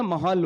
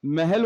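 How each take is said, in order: First: महाल with open "a" vowels, ma-haal; mahal. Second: महल with "e" vowels, meh-hel; mehel. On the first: Speaker asking which is correct, says ma-haal. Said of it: "जबर है". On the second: Speaker asking which is correct, says meh-hel. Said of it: "महल होता है या महाल". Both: Shown as a demonstration.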